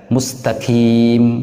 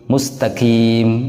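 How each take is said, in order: The two takes are said the same way.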